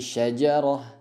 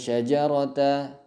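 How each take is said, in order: First: The word ends with an 'h' sound. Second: The word ends with an 'a' vowel. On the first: The speaker calls it right. "dirubah menjadi ha" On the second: The speaker calls it wrong. "bukan syajarata"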